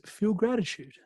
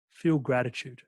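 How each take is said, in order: First: "Feel gratitude" said again much higher and pressed, both words leaned on; insistent repeat. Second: Said in the usual way. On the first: Retold or imitated. Mentor repeating his advice to a doubting listener, insistent. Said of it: "And he goes". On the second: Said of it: "where he goes".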